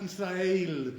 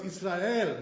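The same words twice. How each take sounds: First: "Israel" slowly, ending in a gliding "eil"; "Israel" with its last vowel stretched to ay; improper Israel. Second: "Israel" as yis-ra-EL with a pure e; "Israel" with no glide in the last vowel; correct Israel. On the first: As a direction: say "Israel" as yis-ra-ALE. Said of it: "This is not the proper way". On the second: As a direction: end "Israel" on a clean "el". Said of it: "So therefore it's Israel". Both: Shown as a demonstration.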